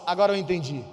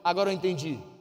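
First: It is said louder and more forcefully. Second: It is said at normal volume.

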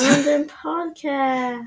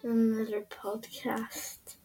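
First: It is said in an excited tone. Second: It is said in a flat, unexcited tone.

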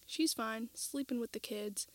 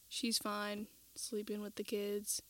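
First: It is read with ordinary varied intonation. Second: It is said in a flat, monotone voice.

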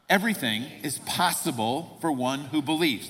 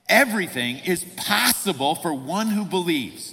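First: It is read plainly, without special conviction. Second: It is read firmly, with strong conviction.

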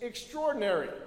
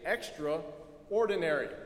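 First: It is said as one blended, reduced word. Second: It is said as two parts, extra and ordinary.

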